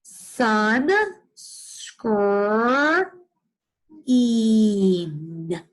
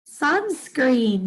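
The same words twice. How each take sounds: First: Sun, skr, een said as separate pieces; teacher sounding out sunscreen; chunked sounding out. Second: Said in the usual way. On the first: Shown as a demonstration. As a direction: break it into three parts. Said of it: "sound that out together". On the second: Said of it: "Did you hear it?".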